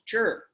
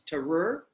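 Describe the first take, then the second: First: The T and R merge into a 'ch' sound. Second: The T and R are said apart, slowly. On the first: "it becomes chur" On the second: "it goes from this"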